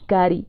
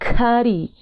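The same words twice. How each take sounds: First: The first k is plain, without breath or pop. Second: The first k has a puff of breath.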